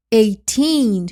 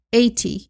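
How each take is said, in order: First: Put-on eighteen with a loud, long teen; stress on teen. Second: Said in the usual way. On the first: Shown as a demonstration. Teacher contrasts for students: eighteen, stressed long teen. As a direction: lean hard on the teen in eighteen. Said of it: "quando eu dou a ênfase no teen". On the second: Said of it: "Se eu não dou a ênfase".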